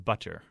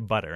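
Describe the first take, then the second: First: The middle consonant is a crisp T sound. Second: The middle consonant is a soft D-like flap. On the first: The speaker sounds pretentious. The speaker calls it wrong. "no American except somebody who's incredibly pretentious says" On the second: This is how ordinary Americans say it. The speaker calls it right. "We all say butter. It sounds like D's"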